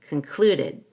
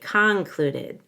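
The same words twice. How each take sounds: First: The first syllable is reduced to a schwa. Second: The first syllable is said as a full vowel. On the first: The speaker calls it right. "So the C O N is reduced to a schwa" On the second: The speaker calls it wrong. "Make sure you don't say concluded"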